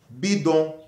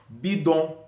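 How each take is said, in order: No difference in how they are said.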